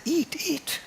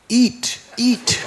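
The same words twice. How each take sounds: First: Put-on little boy pleading. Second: Put-on high, loud child's cry of eat, eat with a laugh; a small boy eagerly coaxing the deity; child voice, higher and louder, urging; little boy pleading. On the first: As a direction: coax gently in a tiny high child's voice. Boy urges deity again.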